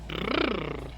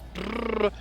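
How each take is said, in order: First: The pitch rises in the middle. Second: The pitch stays level through the middle. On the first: The speaker calls it wrong. "not brrr. If you rise in the middle, then it's an insult" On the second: The speaker calls it right. "it's brrr"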